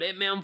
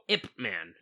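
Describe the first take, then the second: First: The name is said quickly and runs together. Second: The name is said slowly and clearly separated. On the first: The speaker calls it wrong. "when you say it fast, it sounds like you say Hitman" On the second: The speaker calls it right. "Say that a little slower"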